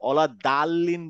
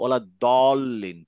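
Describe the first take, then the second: First: The vowel after 'd' sounds open, like 'aa'. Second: The vowel after 'd' sounds rounded, like 'o'. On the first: The speaker calls it wrong. "বলতেছি না" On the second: The speaker calls it right. "ফাথা থাকলে দা না বলে বলবো দ"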